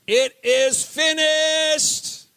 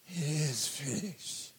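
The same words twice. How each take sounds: First: It is said as a triumphant shout. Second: It is said weakly, without triumph.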